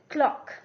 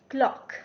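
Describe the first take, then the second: Both takes have the same delivery.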